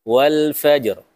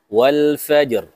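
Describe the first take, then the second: The two takes are said the same way.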